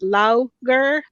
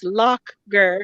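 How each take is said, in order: First: The first word ends in an open vowel. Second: The first word ends in a k-like sound. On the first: This is how it looks to an American reader. The speaker calls it wrong. "us Americans, it sounds and looks like it's pronounced" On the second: This is how local people say it. The speaker calls it right. "it's like ka, like a k"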